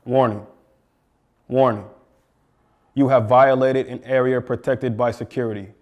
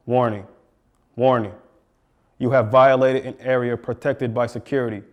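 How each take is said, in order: Both takes have the same delivery.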